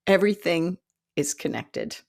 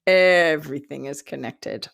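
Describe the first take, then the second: First: Said in the usual way. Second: "Everything" leaned on hard at its first syllable; stress on EVERYTHING. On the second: Real, not acted. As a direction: drive the lesson home with a long, punched "Everything". Lesson repeated for emphasis.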